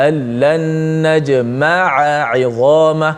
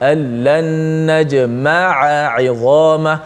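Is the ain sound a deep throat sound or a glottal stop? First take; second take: deep throat; deep throat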